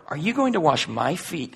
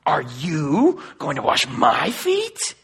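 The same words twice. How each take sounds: First: Said in the usual way. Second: "Are you going to wash my feet?" slowed, leaning on "feet" with a rise; emphatic disbelief, slow, rising at "feet". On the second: Shown as a demonstration. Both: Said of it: "it's actually emphatic in Greek".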